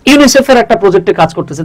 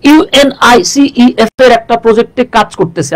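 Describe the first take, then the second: First: ইউনিসেফ said as one word; ইউনিসেফ read smoothly as a word; ইউনিসেফ as a single word. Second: ইউএনআইসিইএফ spelled letter by letter; ইউএনআইসিইএফ said as letters, a bit slow; ইউএনআইসিইএফ drawn out as separate letters; spelled-out wrong way. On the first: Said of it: "আপনি কি বলতেছেন যে". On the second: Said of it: "আপনি কিন্তু এভাবে বলেন না". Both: Shown as a demonstration.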